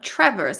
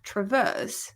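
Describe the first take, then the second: First: The stress is on the first syllable. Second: The stress is on the second syllable. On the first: The speaker calls it wrong. "It's not traverse" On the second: The speaker calls it right. "because the stress is on the verse"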